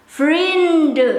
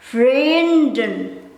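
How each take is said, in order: First: The final n sound is dropped. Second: The final n sound is pronounced. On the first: "you might hear these friends in Dutch will be pronounced as vriend" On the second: "Myself, I will pronounce this vrienden"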